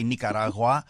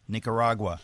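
First: Nicaragua said the Spanish way, "nee-ka-RA-gwa" with tapped r; Spanish pronunciation. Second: Nicaragua said the American way, "nick-uh-RAH-gwuh"; American pronunciation. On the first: Guest arguing against native pronunciations, Nicaragua in Spanish pronunciation. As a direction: roll lightly through Nicaragua with pure Spanish vowels. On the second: Guest defending everyday usage, Nicaragua in American pronunciation. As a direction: anglicize Nicaragua with a flat American r. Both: Shown as a demonstration. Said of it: "We're in America now".

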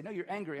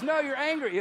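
First: Said in the usual way. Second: Higher, louder retold rebuttal; emphatic contradiction. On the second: Counselor contradicting his frustrated client, emphatic retold rebuttal. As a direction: shoot back with a raised voice.

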